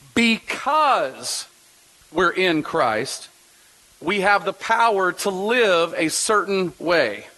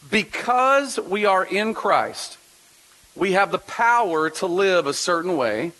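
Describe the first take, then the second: First: The word 'because' is strongly stressed. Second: The word 'because' gets no special stress.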